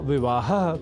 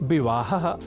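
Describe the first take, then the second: Both takes have the same delivery.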